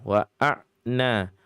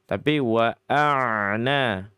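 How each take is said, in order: First: The ain sound is cut off abruptly. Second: The ain sound flows on slightly. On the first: The speaker calls it wrong. "Jangan digantikan dengan sifat syiddah" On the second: The speaker calls it right. "Jadi mengalir begitu"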